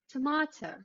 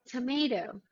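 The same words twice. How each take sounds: First: British accent; the T is a crisp T. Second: American accent; the T sounds like a D. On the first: "and then the British English accent" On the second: "with the American English accent first"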